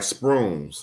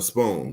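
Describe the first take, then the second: First: The word is said in an imitated, unusual way. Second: The word is said in the standard way. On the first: This is how that group says it. "They say shit like spoons" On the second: This is the usual way to say it. "instead of spoons"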